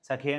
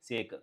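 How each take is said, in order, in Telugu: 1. రెండు అక్షరాలుగా పలుకుతారు, 'keh' తో ముగుస్తుంది. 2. ఒక అక్షరంగా పలుకుతారు, 'make' తో ప్రాస కలుస్తుంది. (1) "సఖే అని ప్రొనౌన్స్ చేయాలి" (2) "ఇది ఎస్ఏకేఈ అంటే సేక్ అండి"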